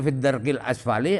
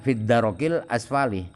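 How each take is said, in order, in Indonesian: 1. Tidak ada vokal setelah r. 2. Vokal a pendek mengikuti r.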